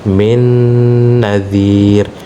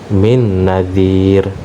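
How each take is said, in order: First: The nasal n is held for a moment. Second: The nasal n is cut short quickly. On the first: The speaker calls it right. "disertai dengan dengung dengan tempo dua harokat. Ya, jadi dia agak ditahan sedikit" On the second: The speaker calls it wrong. "keliru apabila ada orang membaca min nadhir. Nah, ini kurang"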